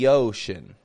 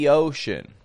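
Both takes have the same delivery.

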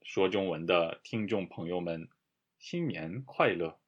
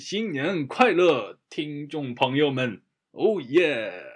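First: It is said in a calm, ordinary way. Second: It is said with wild, loud excitement.

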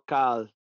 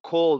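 First: The vowel is an open Spanish 'a' sound. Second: The vowel is a rounded English 'aw' sound. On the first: The speaker calls it wrong. "no cal" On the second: The speaker calls it right. "call, no cal"

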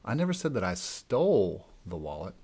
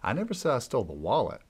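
First: The stress is on the word stole. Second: The stress is on the word wallet.

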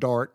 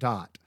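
First: The word is said with an r sound. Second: The word is said without an r sound. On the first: "But she was saying dart" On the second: "She pronounced it dot"

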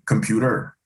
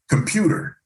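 First: The stress falls on the last syllable. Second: The stress falls before the last syllable. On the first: "in French, it would be computer. The emphasis is always on the last syllable" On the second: "in English, it could be anything, you know, you have computer"

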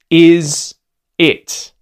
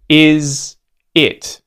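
The two takes are said the same way.

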